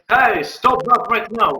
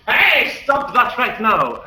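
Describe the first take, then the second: First: Higher, louder, slow stern shout; guard yelling. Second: Higher, louder, slow stern shout; barkeeper yelling. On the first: Guard running at Talius, slow stern yell. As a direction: order it slowly as you charge in. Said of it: "The guard will run towards Talius and, uh, say". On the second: Barkeeper shouting at the brawlers, slow stern yell. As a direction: bellow slowly to break up the fight. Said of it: "the barkeeper will yell at this". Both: Acted.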